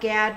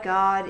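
First: The vowel rhymes with 'glad'. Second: The vowel does not rhyme with 'glad'. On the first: The speaker calls it wrong. "It's not Gad rhyming with glad" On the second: The speaker calls it right. "God is how you pronounce it"

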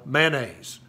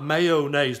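First: It is said Southern style, in two syllables. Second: It is said the standard way, in three syllables.

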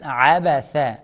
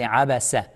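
First: The last consonant is a th sound. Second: The last consonant is an s sound. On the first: The speaker calls it right. "make sure you say tha, not seen" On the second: The speaker calls it wrong. "Don't say abasa"

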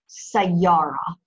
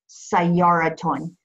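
First: The word ends in a plain ah sound. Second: The word ends in a ton sound. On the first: The word is read without its vowel endings. "when you're pronouncing it unvoweled, you hear an ah sound for ta marbuta" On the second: The word is read with its full vowel endings. "if you vowel it correctly, ... you'll pronounce it sayaraton"

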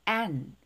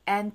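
First: The word is said fully and strongly. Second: The word is said weakly and reduced. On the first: The speaker calls it wrong. "하지 마시고" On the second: The speaker calls it right. "약하게 발음을 하겠죠?"

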